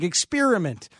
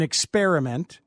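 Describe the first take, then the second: First: The stressed vowel sounds like the vowel in spear. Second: The stressed vowel sounds like the vowel in spare. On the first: "the near vowel as though the word spear were embedded" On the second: "the square vowel as though they're using the word spare in experiment"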